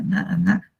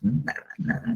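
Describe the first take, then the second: First: Nada, nada lifted much higher in an aching cry. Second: Nada, nada whispered under the breath, high; breathy whisper. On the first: Preacher to his flock, nothing mattered, crying out nada, nada. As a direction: throw nada, nada up high, almost crying out. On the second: Preacher to his flock, nothing mattered, whispered nada, nada. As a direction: let nada, nada fall to a hushed whisper. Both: Real, not acted.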